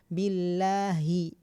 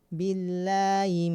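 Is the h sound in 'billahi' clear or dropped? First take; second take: clear; dropped. First: The h sound in the middle is clear. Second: The h sound in the middle is dropped. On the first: The speaker calls it right. "harus jelas billahi gitu" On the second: The speaker calls it wrong. "haknya nggak dapat"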